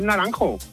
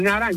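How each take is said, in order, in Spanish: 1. El nombre termina con la vocal final o. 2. El nombre termina sin su vocal final. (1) "es Naranjo" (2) "no es Naranj"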